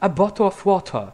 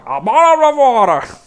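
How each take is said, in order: First: It is said in a British accent. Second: It is said in a gurgling creature voice.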